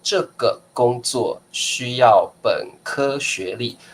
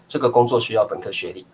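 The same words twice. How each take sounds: First: It is said very slowly. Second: It is said at normal conversational speed.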